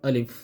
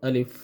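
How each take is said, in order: The two takes are said the same way.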